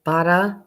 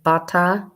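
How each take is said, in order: First: It is said in a Brooklyn accent. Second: It is said in a Brooklyn accent.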